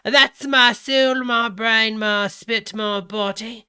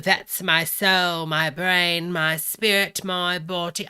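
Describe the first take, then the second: First: Higher, much louder mock Cockney; British Cockney. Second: Loud, measured mock-Cockney list; put-on British Cockney, each item set apart. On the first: Rereading his text to followers, in booming mock British Cockney. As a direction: declaim it in hammed-up British Cockney. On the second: Reading his text to followers, loud mock British Cockney. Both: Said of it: "he's reading it British Cockney".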